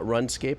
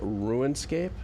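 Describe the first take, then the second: First: The first vowel is a short u sound. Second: The first vowel is a long u sound. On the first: The speaker calls it wrong. "not RunScape" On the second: The speaker calls it right. "with a long U"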